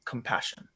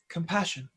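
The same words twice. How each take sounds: First: Hushed, low echo of a mentor; Quell. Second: Put-on soft little-boy voice; Ulrich. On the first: Acted. Mentor's word remembered from that day, hushed. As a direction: whisper it like a remembered voice. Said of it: "and hears Quell's voice say". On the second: Boy answering what he feels, in a soft young voice. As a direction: answer quietly, as a small boy. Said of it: "in his little boy voice".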